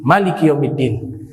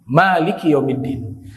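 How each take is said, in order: First: The vowel after the m is kept short. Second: The vowel after the m is drawn out long. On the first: "mereka bacanya tidak memanjangkan huruf mim" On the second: "dibaca panjang huruf mimnya"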